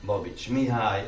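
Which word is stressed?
Mihály. The stress falls on the given name Mihály. The speaker calls it wrong. "és nem"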